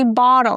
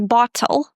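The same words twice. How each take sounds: First: The middle consonant is a soft D-like flap. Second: The middle consonant is a crisp true T. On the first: "They say bottle, especially Americans" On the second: "They don't say bottle"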